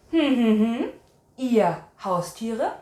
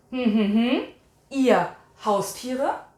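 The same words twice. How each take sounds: The two takes are said the same way.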